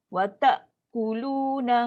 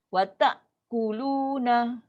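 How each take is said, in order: No difference in how they are said.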